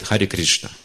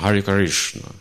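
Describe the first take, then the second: First: It is said with a Russian accent. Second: It is said with an American accent.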